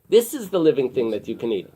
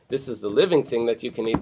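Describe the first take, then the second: First: The stress is on "this". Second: The stress is on "living".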